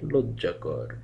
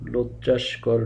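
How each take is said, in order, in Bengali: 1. 'kor'-এর আগে কোনো 's' ধ্বনি নেই। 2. 'kor'-এর আগে 's' ধ্বনি আছে। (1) "শব্দটি হবে লজ্জাকর" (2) "শব্দটি লজ্জাস্কর নয়"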